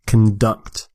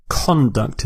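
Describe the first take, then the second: First: "conduct" as con-DUCT, second syllable stressed; verb stress. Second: "Conduct" as CON-duct, first syllable stressed; noun stress. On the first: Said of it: "is the verb". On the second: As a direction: put the weight on CON in "Conduct". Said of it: "is the noun". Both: Shown as a demonstration.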